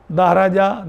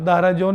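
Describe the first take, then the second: First: Said in the usual way. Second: دہرجون ending in "-un"; wrong tanween ending. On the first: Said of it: "دہرجون نہیں پڑھیں گے". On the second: Shown as a demonstration. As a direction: say دہرجون with an n closing the last syllable. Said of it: "نہیں پڑھیں گے".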